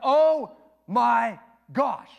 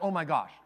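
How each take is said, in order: First: It is said slowly with pauses between words. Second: It is said quickly in one burst.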